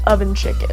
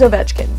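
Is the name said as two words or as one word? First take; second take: two words; one word. First: It sounds like the two words oven chicken. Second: It is said as one three-syllable name. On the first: The speaker calls it wrong. "that's how I pronounce it in my head" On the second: The speaker calls it right. "his name's Ovechkin"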